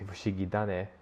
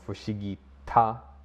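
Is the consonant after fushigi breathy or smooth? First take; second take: smooth; breathy. First: The second word starts with a smooth d. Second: The second word starts with a breathy t. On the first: The speaker calls it right. "it just comes a bit smoother" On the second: The speaker calls it wrong. "it has a bit of a strong, breathy, airy push"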